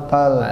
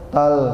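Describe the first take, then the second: Both takes have the same delivery.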